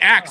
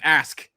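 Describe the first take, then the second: First: It is said as 'aks' in a slang dialect. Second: It is said as standard 'ask'.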